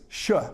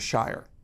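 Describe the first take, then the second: First: The ending is said without any R sound. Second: The ending is said with an R sound. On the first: "no R sound, just a sh at the end of it" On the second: "rather than a shire"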